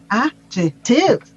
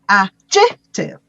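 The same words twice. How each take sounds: First: The stress is on the third syllable. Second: The stress is on the second syllable. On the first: "the stress on the third syllable" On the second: "This is the pronunciation with the word on the si- on the second syllable"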